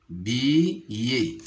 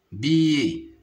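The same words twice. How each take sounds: First: "billet" split into bi, pause, yé; syllable by syllable. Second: Said in the usual way. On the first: Shown as a demonstration. Teacher showing pupils the two syllables, "billet" split apart. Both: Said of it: "se compose de deux syllabes".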